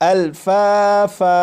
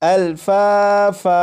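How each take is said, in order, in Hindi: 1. शब्द लंबे a स्वर पर खत्म होता है। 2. शब्द लंबे a स्वर पर खत्म होता है।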